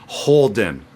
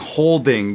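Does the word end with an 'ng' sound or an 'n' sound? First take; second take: n; ng. First: The word ends with a plain 'n' sound. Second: The word ends with a full 'ng' sound. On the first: "you can drop that G sound" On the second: "instead of saying holding"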